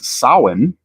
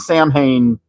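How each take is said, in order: First: The name gets its Celtic festival pronunciation. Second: The name gets the cartoon villain's pronunciation. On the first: It names the traditional fall festival. "the Celtic pronunciation of the fall festival associated with Halloween is Samhain" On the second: It names the villain from the cartoon. "I will be intentionally saying Sam Hain"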